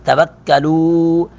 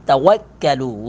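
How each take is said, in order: First: توکلوا drawn slowly, lips rounded on the waw. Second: Said in the usual way. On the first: Shown as a demonstration. Teacher modelling the word for students, slow rounded waw. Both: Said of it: "واو کو ہونٹوں کو گول کر".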